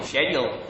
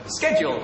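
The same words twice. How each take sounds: First: Said in the usual way. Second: American "sked-jool"; hard "sk" in an American accent. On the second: Shown as a demonstration. Brit trying a requested word, American accent. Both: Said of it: "my best American accent".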